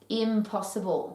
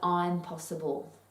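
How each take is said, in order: First: The first syllable is unstressed. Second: The first syllable is stressed. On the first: It cannot be done. "Great word that" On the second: I am capable of doing it. "What if you changed the emphasis on the syllable"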